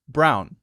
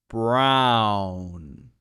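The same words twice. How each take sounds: First: The word is said quickly. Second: The word is said slowly.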